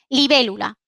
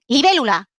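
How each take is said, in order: First: It is said with a neutral statement tune. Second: It is said with a commanding tune. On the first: It states what something is. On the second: It gives an order.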